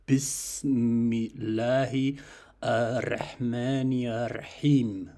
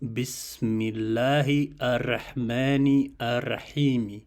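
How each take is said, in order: First: The last word ends without a final vowel. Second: The last word ends with a final vowel. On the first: It follows the spoken recitation. "the speaker says ... he doesn't pronounce the Yim in the end" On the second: It follows the written text. "I read it as Bismillahi ar-Rahmani ar-Rahimi, as it is written in the text"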